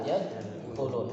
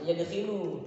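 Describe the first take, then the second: First: The vowel after the kh is u. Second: The vowel after the kh is i. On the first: The speaker calls it right. "tapi dakhala yadkhulu" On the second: The speaker calls it wrong. "jangan yadkhilu"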